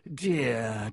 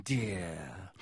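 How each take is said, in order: First: Sneering fake sympathy; nasty mock pity. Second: Lower, softer nasty mock pity; sneering, dropping low. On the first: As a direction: pretend to pity him, nastily. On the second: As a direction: let the second dear sink with contempt. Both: A narrator's reading. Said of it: "smiling still more nastily".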